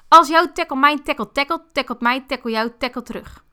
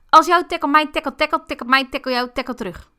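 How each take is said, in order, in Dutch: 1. Het wordt snel gesproken, in een hoog tempo. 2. Het wordt nog sneller gesproken, in een hoger tempo. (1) "dat vond ik toch al behoorlijk snel" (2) "of ik hem nog één tempo hoger kan"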